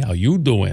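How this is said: It is said in a flirty Joey voice.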